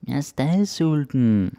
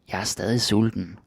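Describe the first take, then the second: First: It is said in a baby voice. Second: It is said in a normal voice.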